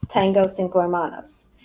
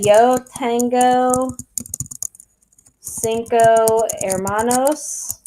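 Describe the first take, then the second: First: Said in the usual way. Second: Slow, careful model sentence in Spanish. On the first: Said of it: "and just say". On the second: Shown as a demonstration. Teacher models the full sentence for her students, slowly. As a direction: say "Yo tengo cinco hermanos" slowly, each word set apart. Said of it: "So you can say".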